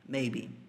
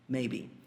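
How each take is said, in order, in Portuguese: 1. A sílaba tônica é a primeira. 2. A sílaba tônica é a primeira.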